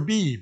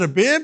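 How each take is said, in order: First: The last vowel is a long 'ee'. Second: The last vowel is a short 'i'. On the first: "It's probably a beeb" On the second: "I'm from Maine, so I call it a bib"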